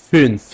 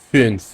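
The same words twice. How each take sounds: Both takes have the same delivery.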